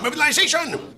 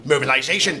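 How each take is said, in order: First: "mobilization!" hit much higher as a rallying cry; "mobilization!" as a commander's rallying cry; emphatic repeat. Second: Said in the usual way. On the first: Acted. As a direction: throw "mobilization!" up high and hard. Officer repeats his order word.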